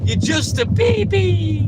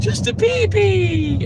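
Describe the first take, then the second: First: Drawn-out high mocking baby voice; mock baby talk. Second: Put-on slow, high baby-talk teasing; drawn-out high baby voice; mock baby talk. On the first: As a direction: taunt him like a toddler. Teasing Aziz in baby talk. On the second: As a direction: coo at him like he's an infant.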